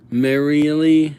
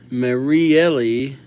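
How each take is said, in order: Both takes have the same delivery.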